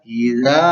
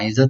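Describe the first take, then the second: First: The vowel is held for two beats. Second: The vowel is cut short, not held. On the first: The speaker calls it right. "ditahan secara dua ketukan" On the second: The speaker calls it wrong. "iza itu salah"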